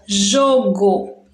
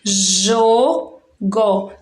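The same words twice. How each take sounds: First: Said in the usual way. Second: JOGO drawn out as two separate beats, jo, go; split into syllables. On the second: Shown as a demonstration. Teacher showing third graders how we pronounce it, syllable by syllable. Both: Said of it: "a gente pronuncia assim".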